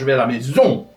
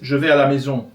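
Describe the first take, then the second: First: The last syllable gets very heavy stress. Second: The last syllable gets only light stress.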